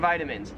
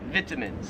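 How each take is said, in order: First: It is said in an American accent. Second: It is said in an Australian accent. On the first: The speaker calls it right. "it's healthy to take your vitamins" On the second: The speaker calls it wrong. "Some people in Australia... pronounce it vitamins. No"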